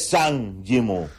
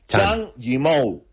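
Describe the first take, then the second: First: The name begins with a z sound. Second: The name begins with a ch sound. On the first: The speaker calls it wrong. "nada de Zhang Yimou" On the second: The speaker calls it right. "la Z y la H es Chang"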